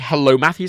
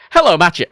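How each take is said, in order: First: The name is said with a clear 'th' sound. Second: The name sounds almost like 'matcha'. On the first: This is not how people in Ireland say it. "they don't say hello, Matthew" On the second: This is the casual way people in Ireland say it. "They say hello, Matcha. ... it's almost like matcha tea"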